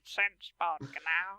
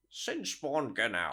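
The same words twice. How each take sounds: First: Slow, soft, lowered monster voice; monster voice imitation. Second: Very slow, stretched monster voice; monster voice imitation. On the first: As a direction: drag out the monster name slowly. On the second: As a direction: drawl the name like the creature. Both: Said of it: "I liked your Sinspawn Gnau".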